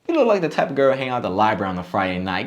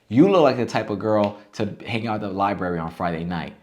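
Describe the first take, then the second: First: It sounds playful and lighthearted. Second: It sounds serious and earnest. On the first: The speaker is only teasing. The speaker calls it right. "the second one was a lot funnier, a lot more lighthearted" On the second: The speaker is trying to make a real point. The speaker calls it wrong. "the other one is like trying to get a point across"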